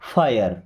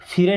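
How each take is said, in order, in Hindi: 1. इसमें लंबा स्वर होता है: fai-yer। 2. इसे एक छोटे अक्षर की तरह बोला जाता है: fir। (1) "क्या पढ़ेंगे? फायर।" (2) "फिर नहीं पढ़ना है"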